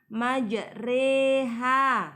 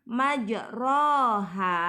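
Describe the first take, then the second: First: The vowel after r is an e. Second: The vowel after r is an open a. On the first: This is how the word is recited. "membacanya majreha" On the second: This is how the word is written. "Tulisannya majroha"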